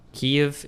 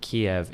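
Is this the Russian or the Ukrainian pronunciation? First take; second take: Ukrainian; Russian. First: It is said in the Ukrainian-style pronunciation. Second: It is said in the Russian-style pronunciation. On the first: This is the Ukrainian form of the name. "is Ukrainian" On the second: This is the Russian form of the name. "is Russian"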